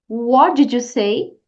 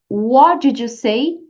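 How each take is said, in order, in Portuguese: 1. O T no final de 'what' é omitido. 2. O T no final de 'what' é omitido.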